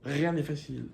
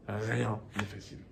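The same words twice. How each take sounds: First: Said in the usual way. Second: Softer, lower repeat, letting it sink in; quiet echo. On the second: Shown as a demonstration. Teacher repeats the lesson to new immigrants, softly. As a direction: say it again under the breath.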